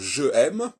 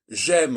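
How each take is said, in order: First: The vowel of je is kept as separate. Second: The vowel of je is dropped and joined. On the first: The speaker calls it wrong. "au lieu de dire je aime" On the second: The speaker calls it right. "quand je dis j'aime"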